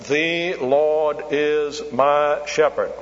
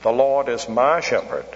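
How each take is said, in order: First: Very slow, every word given equal weight; a beginner's even, word-by-word recital; plodding child's reading. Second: Put-on "my" firmly accented in a steady phrase; stress on my. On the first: Retold or imitated. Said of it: "that's not the way to read it". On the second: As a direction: correct the reading, leaning on "my". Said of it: "Put the emphasis where it ought".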